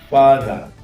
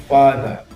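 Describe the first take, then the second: Both takes have the same delivery.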